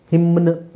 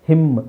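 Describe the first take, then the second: First: ಹಿಮ್ನ್ with the final n sounded; wrong pronunciation. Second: ಹಿಮ್ with silent final n; correct pronunciation. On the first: Teacher showing what we don't say, wrong pronunciation. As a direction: add an audible n after m in ಹಿಮ್ನ್. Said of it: "ಅಂತ ಹೇಳಲ್ಲ". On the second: Teacher showing the silent N, correct pronunciation. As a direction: close ಹಿಮ್ on m, no n. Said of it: "So ಎನ್ is silent". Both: Shown as a demonstration.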